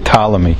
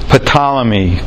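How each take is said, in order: First: The initial P is silent. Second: The initial P is pronounced aloud. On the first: The speaker calls it right. "so you say Ptolemy" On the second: The speaker calls it wrong. "That's not how you say it"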